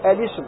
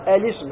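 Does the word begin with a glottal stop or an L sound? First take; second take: glottal stop; glottal stop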